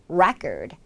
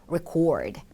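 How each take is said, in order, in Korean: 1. 강세는 첫 번째 음절에 있어요. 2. 강세는 두 번째 음절에 있어요. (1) "이름절에 강세가 있는 경우" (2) "동사는 record 라고 강세가 뒤로 가게 돼요"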